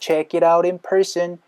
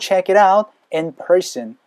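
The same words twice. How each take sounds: First: 'Out' runs straight into 'in' with a flapped T. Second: There is a short pause between 'out' and 'in'. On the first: "check it out인까지 연결되면서" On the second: "그리고 나서 쉬어주시면 돼요. 전치사 앞이니까"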